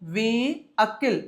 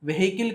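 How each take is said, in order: First: No H sound is heard in the middle. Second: An H sound is heard in the middle. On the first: The speaker calls it right. "హెచ్ silent" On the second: The speaker calls it wrong. "Vehicle కాదండి"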